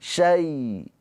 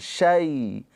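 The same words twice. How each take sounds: First: The vowel is short and softly pronounced. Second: The same.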